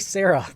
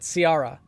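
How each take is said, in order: First: The name is pronounced like Sarah. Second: The name is pronounced like Ciara. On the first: The speaker calls it wrong. "I want to say Sarah" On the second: The speaker calls it right. "but Ciara"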